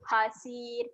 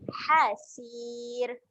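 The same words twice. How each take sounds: First: The first h is soft and not pressed. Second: The first h is pressed from the throat. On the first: The speaker calls it wrong. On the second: The speaker calls it right.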